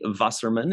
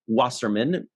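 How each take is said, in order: First: The name is pronounced with German sounds. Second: The name is pronounced with English sounds.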